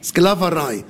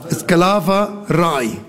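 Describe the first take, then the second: First: Said in the usual way. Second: "Sklaverei" said slowly, syllable by syllable; slow, careful "Sklaverei"; slow careful word. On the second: Shown as a demonstration.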